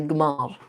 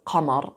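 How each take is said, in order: First: It begins with a g sound, Libyan style. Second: It begins with a deep q sound.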